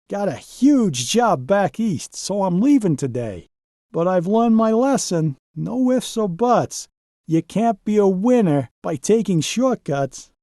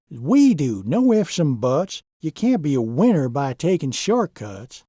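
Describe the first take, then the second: First: A higher, lightly voiced truck saying goodbye; humbled Donald. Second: A lightly voiced, firm foreman; stern Zane. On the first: Donald telling the crew his lesson, higher and sincere. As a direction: share the lesson learned, sincere. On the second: Zane scolding Donald about shortcuts, lightly stern. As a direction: lay down the rule calmly and firmly. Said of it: "Zane spoke sternly".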